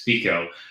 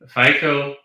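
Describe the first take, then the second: First: The first vowel is an 'ee' sound. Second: The first vowel is a long 'i' sound. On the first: The speaker calls it right. "but it's FICO" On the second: The speaker calls it wrong. "I want to make it a long I"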